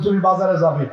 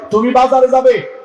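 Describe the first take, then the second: First: Said in the usual way. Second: Firmer repeat. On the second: Acted. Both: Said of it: "repeated louder".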